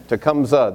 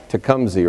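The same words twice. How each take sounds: First: "Tecumseh" with the last syllable an unstressed uh; his own way. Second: "Tecumseh" said as too-KUM-zee, ending in ee; pronounced TOO-kum-zee. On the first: Speaker showing the church how he would say "Tecumseh", uh ending. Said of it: "That's the way I would say it". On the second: Guest asking the congregation if "Tecumseh" sounds right, ee ending. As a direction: local try at "Tecumseh" ending in a long ee. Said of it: "Did I pronounce it right?". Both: Shown as a demonstration.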